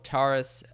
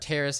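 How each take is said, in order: First: It sounds like the word Taurus. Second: It sounds like Taris, not Taurus. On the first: The speaker calls it wrong. "I had that wrong" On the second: The speaker calls it right. "most people say Taris"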